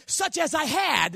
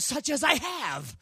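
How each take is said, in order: First: "had" leaned on, slow and falling; stress on had. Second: "have" said slowly with weight on "I"; slow it down, lean on "I have"; stress on have. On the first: Preacher showing congregation the wrong phrase, stressing had. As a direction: drag out "had" as the wrong word. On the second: Preacher giving congregation the right phrase, stressed. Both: Shown as a demonstration. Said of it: "instead of".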